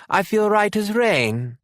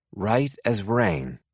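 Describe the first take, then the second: First: Put-on much higher, slow child's voice, British; a little lad swearing he's fine; young son insisting to his mother he's well, high and slow; small boy insisting. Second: Said in the usual way. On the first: A narrator's reading.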